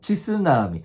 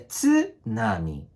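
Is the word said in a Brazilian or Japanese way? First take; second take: Brazilian; Japanese. First: It is said the way Brazilian newscasters say it. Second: It is said with the Japanese tsu sound. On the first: The speaker calls it wrong. "E, e não é assim" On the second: The speaker calls it right. "é tsunami"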